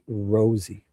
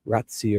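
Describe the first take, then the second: First: The first vowel sounds like 'o' in rose. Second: The first vowel sounds like 'ah' in father. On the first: This is how the name's owner says it. The speaker calls it right. "he pronounces it Rosie, like a rose" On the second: This is the Italian way to say the name. The speaker calls it wrong. "the Italian proper pronunciation would be Razzi"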